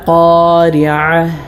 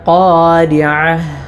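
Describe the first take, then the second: Both takes have the same delivery.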